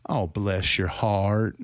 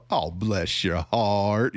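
First: Slow, syrupy Southern "Oh, bless your heart". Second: Slow, sugary Southern "Oh, bless your heart"; Southern grandma. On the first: Critic imitates Southern sweet condescension, slowly. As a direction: draw it out like a Southern grandma. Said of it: "they'll say". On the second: Critic voices a Southern grandma's sweet condescension. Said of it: "these grandmas in the South". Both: Retold or imitated.

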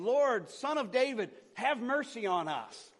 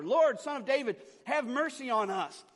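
First: Slow, raised call for mercy; shouting plea. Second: High, loud cry for mercy; louder shouting. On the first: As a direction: call out loudly, stretching the words. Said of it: "they began shouting, saying". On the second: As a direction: shout it higher and harder, pleading. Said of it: "they only shouted louder". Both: A narrator's reading.

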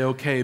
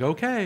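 First: Said in the usual way. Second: Okay pitched up high with an eager rise; enthusiastic okay. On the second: Shown as a demonstration. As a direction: give an eager, lifted Okay as a model for the church. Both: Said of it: "You have to say, like".

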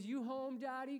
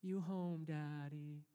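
First: Put-on high little-boy question; Joshua. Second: Subdued, lightly voiced waking child; sleepy child. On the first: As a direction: imitate a child checking from upstairs. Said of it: "top of the stairs and goes". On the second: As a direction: imitate a half-woken little boy, gently. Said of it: "if he wakes up in that moment".

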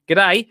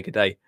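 First: Higher, punchy Australian greeting; Australian accent. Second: Said in the usual way. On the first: Acted. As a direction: imitate a hearty Australian accent. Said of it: "No, I will do it". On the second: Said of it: "He didn't even say".

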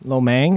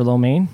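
First: "mein" repeated as "mang", ending in ng; echoed mispronunciation. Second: Said in the usual way. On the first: Retold or imitated. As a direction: echo the mistake, saying "mein" like "mang". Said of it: "I used to say lo mein". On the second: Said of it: "like for lo mein".

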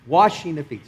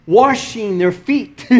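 First: Said in the usual way. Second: Slow Texas accent on "washing". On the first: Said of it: "Sorry, that Texas accent comes out". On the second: Real, not acted. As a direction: let "washing" come out with a Texan R. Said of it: "that Texas accent comes out".

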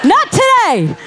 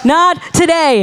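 First: Defiant cry. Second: Same words repeated with a laugh, relaxed; laughing echo. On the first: Preacher defies the dark side before the congregation, shouting. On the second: Preacher repeats her defiance to the church, laughing. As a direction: laugh it off after the shout. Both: Real, not acted. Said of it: "the dark side was not going".

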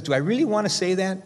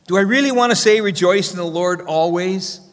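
First: Raised pitch, softer, wondering aloud; a touch of hesitation, asked quietly; hesitant self-question. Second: Incredulous self-question. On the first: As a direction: pause and doubt your own words. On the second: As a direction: ask it as if it can't be true. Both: Retold or imitated. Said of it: "as if he pauses for a moment there".

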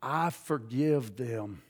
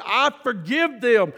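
First: Very low, soft and slow, almost breathed; quiet forgiveness. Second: Said in the usual way. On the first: Retold or imitated. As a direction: say it softly and slowly, as if from deep inside. Recalls forgiving in prayer.

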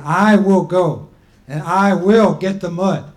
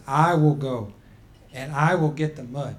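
First: Louder, slower, determined declaration; firm insistence. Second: Said in the usual way. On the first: Acted. Grandma Turtle cutting off the people, insisting she will go. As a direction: cut them off and insist. Before they could finish.

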